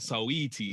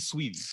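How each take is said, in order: First: The name is said with three syllables. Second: The name is said with two syllables. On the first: This follows the spelling. "but I pronounce it Saweetie" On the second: This is the intended pronunciation. "it's supposed to be Sweetie"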